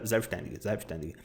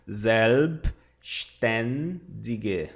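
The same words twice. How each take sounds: First: "selbstständige" run together quickly, softer and lower; quick, low-key "selbstständige"; said fast. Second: "selbstständige" very slowly as ZELB-SHTEN-di-gue; "selbstständige" drawn out with pauses, lower pitch; slow pronunciation demo. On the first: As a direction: rattle off "selbstständige" in one go. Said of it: "Vamos falar rápido". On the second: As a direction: separate every syllable of "selbstständige". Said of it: "E aqui tá a pronúncia". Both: Shown as a demonstration.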